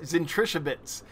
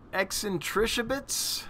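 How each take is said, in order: First: The name begins with a 'z' sound. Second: The name begins with an 'eks' sound. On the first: "It would just be Zentrichabits" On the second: "No, it wouldn't be X"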